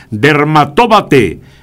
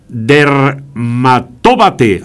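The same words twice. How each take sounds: First: Dermatóbate with the stress landing on tó; Dermatóbate said slowly with a clear stress on tó. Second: Dermatóbate read very slowly, syllable by syllable; slow spelling out. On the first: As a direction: lean on the accented tó in Dermatóbate. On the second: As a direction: sound out Dermatóbate carefully. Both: Shown as a demonstration. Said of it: "está acentuada la palabra".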